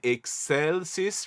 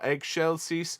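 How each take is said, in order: First: The word uses the German Latin pronunciation. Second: The word uses a non-German Latin pronunciation. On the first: "We are singing with the German pronunciation" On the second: "rather than"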